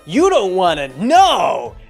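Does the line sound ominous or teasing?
teasing. It is said in a light, teasing way. The listener is just being messed with. The speaker calls it wrong. "it sounds like they're teasing him"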